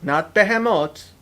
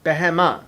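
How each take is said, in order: First: The word ends in a 'moth' sound. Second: The word ends in an open 'ah' vowel. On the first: It sounds like a plural form. The speaker calls it wrong. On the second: It names a single creature. The speaker calls it right. "Behema, not behemoth"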